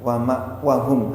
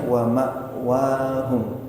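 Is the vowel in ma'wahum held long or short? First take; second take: short; long. First: The vowel is cut short. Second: The vowel is held long. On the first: The speaker calls it wrong. "Tadi kembali pendek ininya" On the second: The speaker calls it right.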